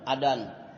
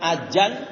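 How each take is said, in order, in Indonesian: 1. Konsonan tengahnya bunyi d. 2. Konsonan tengahnya bunyi j. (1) "Kalau pakai dal itu orang Sunda" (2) "Ada juga yang pakai jim"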